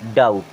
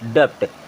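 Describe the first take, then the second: First: No b sound is pronounced in the word. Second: A b-like sound is pronounced in the word. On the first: The speaker calls it right. "ये होता है डाउट। यहाँ पर बी हमारा क्या रहेगा, silent रहेगा" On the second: The speaker calls it wrong. "मैं इसे क्या पढ़ता था, डप्ट"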